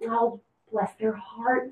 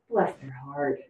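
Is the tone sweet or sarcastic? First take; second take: sweet; sarcastic. First: It sounds sweet and affectionate. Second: It sounds sarcastic and disapproving.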